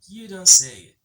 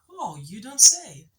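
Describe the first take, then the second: First: It sounds ironic and sarcastic. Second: It sounds genuinely surprised.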